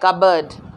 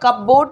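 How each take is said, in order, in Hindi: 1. इसे 'kubberd' ऐसे बोला जाता है, p की आवाज़ के बिना। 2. इसे 'cup-board' ऐसे बोला जाता है, p की आवाज़ के साथ। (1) "ये कबर्ड है" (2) "ये कपबोर्ड नहीं है"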